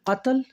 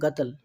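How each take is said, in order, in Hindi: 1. यह शब्द गहरी 'q' ध्वनि से शुरू होता है। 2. यह शब्द कठोर 'g' ध्वनि से शुरू होता है। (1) "काफ से ही होता है वो कत्ल" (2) "गा करके बोलते हैं गतल"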